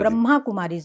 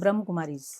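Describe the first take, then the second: First: The first word ends with a long 'a' vowel. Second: The first word ends without any final vowel. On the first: The speaker calls it right. "ब्रह्मा Kumaris, not ब्रह्म Kumaris" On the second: The speaker calls it wrong. "Not ब्रह्म Kumaris"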